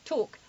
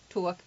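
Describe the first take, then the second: First: English "tawk", closed round vowel; English accent. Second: New York "tawk" with a glide; New York accent. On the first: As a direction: hold one tight English vowel. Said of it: "Someone from England". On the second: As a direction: glide through the vowel like a New Yorker. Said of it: "A New Yorker says talk". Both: Shown as a demonstration.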